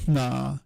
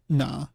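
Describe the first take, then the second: First: The nasal starts without voicing. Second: The nasal starts with a glottal catch.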